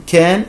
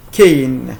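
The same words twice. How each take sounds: First: "can" with a short open vowel, no glide. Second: "cane" drawn out with an "ay" glide; long A. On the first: Teacher giving both sounds of A, short vowel in can. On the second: Teacher giving both sounds of A, long vowel in cane. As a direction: say "cane" slowly, rhyming with rain. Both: Shown as a demonstration. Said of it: "A as in can and cane".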